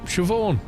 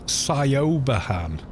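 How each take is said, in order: First: It is said as two syllables, 'shiv-awn'. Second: Every letter is sounded out as English spelling. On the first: The speaker calls it right. "no Siobhan" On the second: The speaker calls it wrong. "you read it in English, it's"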